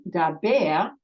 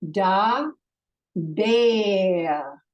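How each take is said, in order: First: Said in the usual way. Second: "Da" then "bear", two separate beats with a pause between; split into syllables. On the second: Shown as a demonstration. Teacher showing students the two syllables of daber, split apart. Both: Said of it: "This has a two syllable sound".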